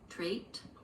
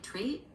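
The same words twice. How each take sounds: First: The final T is fully released. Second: The final T is stopped, not released. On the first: "and one with a full T" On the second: "One with a stop T there"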